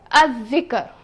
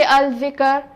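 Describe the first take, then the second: First: Lam silent, dhal doubled: "al-dhikr" said as "adh-dhikr"; correct pronunciation. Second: Lam sounded: "al-dhikr" with a clear l before the dhal; wrong pronunciation. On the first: Teacher modelling assimilated lam for students. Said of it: "I will say". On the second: Teacher showing students the wrong way with lam. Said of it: "I will not say". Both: Shown as a demonstration.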